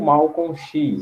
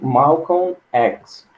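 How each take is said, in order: First: The X is said as Portuguese 'xis'. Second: The X is said as English 'ex'.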